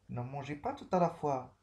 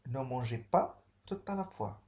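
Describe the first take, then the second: First: A teacher's stern no; firm prohibition. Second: Firm warning with pas stressed; a stern no; firm prohibition. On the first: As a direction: forbid it firmly. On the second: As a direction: lean on pas to forbid it. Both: Shown as a demonstration. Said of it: "Interdiction ici".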